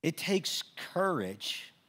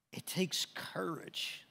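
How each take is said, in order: First: Slow, full voice with weight on takes; slow, firm stress on takes; voiced emphasis. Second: Slow, breathy near-whisper; slow hushed weight on takes; hushed emphasis. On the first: Preacher repeats line full voice. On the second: Acted. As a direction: let it sink in, almost whispered. Preacher repeats line in a hush.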